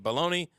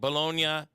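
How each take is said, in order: First: It is said like 'baloney', ending in 'nee'. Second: It is said the Italian way, ending in 'nya'. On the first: This is the American pronunciation. "so we started calling it bologna" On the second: This is the original Italian pronunciation. "we didn't like bologna as a pronunciation"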